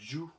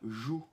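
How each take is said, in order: First: It starts with a D sound before the J. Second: It starts with a soft French J. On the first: The speaker calls it right. "comme s'il y avait un petit D euh, avant" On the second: The speaker calls it wrong. "c'est pas Ju, même si j'ai mis un J"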